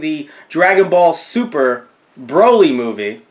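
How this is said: 'Super' is grouped with 'Dragon Ball' before 'Broly'. The movie belongs to the show Dragon Ball Super. The speaker calls it right. "They they named it Dragon Ball Super"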